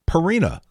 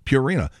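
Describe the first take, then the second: First: The first syllable does not sound like pure. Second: The first syllable sounds like the word pure. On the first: The speaker calls it wrong. "He says Purina. It's not Purina" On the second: The speaker calls it right. "which is Purina, like pure"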